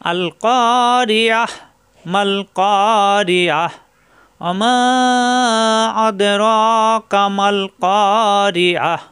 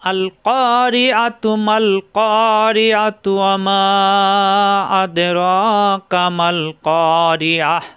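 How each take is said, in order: First: The reader stops after each verse, ending it with h. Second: The verses run together without stopping between them. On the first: "আলাদা আলাদা পড়লে" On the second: "তিনটা আয়াত যদি আমরা মিলিয়ে পড়ি"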